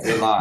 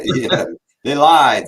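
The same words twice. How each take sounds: First: Laughing. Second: Loud laughing, slowed. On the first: Laughing loud reply. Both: Real, not acted.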